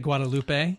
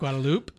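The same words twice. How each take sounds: First: The name is said with Spanish pronunciation. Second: The name is said with English pronunciation. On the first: The speaker calls it right. "I do say Guadalupe" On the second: The speaker calls it wrong. "Instead of Guadalupe"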